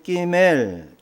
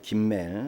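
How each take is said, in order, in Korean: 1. 첫 자음은 경음이고 세게 나요. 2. 첫 자음은 평음이고 여리게 나요.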